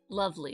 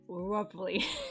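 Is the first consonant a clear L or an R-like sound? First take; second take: clear L; R-like. First: It starts with a clear English L sound. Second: It starts with a sound between R and L. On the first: "instead of" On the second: "it's like this kind of halfway halfway sound"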